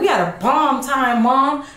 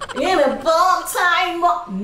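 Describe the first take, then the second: First: It is said in a low, deep voice. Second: It is said in a higher, lighter voice.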